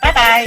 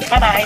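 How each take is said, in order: First: The voice is raised, high and lively. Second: The voice is low, flat and dull. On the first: "抬高一下我自己嘅把声" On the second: "做翻我以前先"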